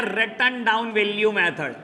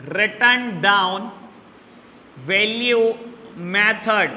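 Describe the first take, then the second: First: Said in the usual way. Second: "written down value method" very slow, with long pauses; dictation. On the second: Shown as a demonstration. Teacher repeating the second method for students, very slow dictation. Repeats the name for note-taking.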